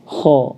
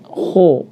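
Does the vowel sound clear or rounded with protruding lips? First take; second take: clear; rounded. First: The vowel is clear, lips held close. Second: The vowel is rounded with lips pushed forward. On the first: The speaker calls it right. "kalau kita membacanya tepat, maka bacaan kita ini akan apa? Akan jelas ya" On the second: The speaker calls it wrong. "dimonyongkan tadi ho, maka bacaan kita jadi kurang tepat ya"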